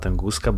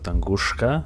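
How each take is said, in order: First: The sound before the final syllable is plain s. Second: The sound before the final syllable is sh. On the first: The speaker calls it wrong. "not Tunguska" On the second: The speaker calls it right. "with like shka"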